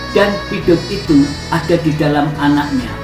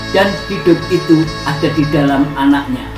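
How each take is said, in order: No difference in how they are said.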